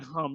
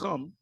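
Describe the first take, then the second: First: The word begins with a soft plain h sound. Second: The word begins with a harsh throaty ch sound. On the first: The speaker calls it wrong. "It's not it's not hum" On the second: The speaker calls it right. "It's chum. That's the right way of saying it"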